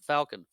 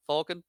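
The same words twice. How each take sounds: First: "Falcon" with the short a of cat; pronounced FAL-kin. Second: "Falcon" with an open aw, questioning; pronounced FAWL-kin. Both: Shown as a demonstration. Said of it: "I'm not saying it differently".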